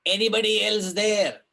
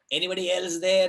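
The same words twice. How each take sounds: First: Higher, louder desperate call; hammed-up plea into the dark; crying out. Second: Raised, pleading call, a little less loud; half-hearted repeat of the desperate call; crying out. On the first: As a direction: shout out into the dark for anyone else. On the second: Retold or imitated. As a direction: call out again, still hoping. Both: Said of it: "cries out".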